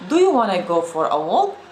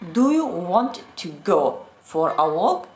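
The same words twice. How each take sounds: First: The words are reduced and linked together. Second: Each word is said separately and carefully. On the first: The speaker seems close to native. The speaker calls it right. "Sounds a closer to being a native speaker" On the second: The speaker seems to be a beginner. The speaker calls it wrong. "Sound as if you just started learning English"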